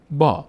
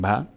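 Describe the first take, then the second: First: با as a stretched "baa"; long aa vowel. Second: ب as a brief "ba"; short a vowel. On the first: Teacher correcting short ba to long "baa" on با. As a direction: hold the aa in با long. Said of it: "با صدای آ". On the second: Teacher showing what we no longer say, short "ba" on ب. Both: Shown as a demonstration.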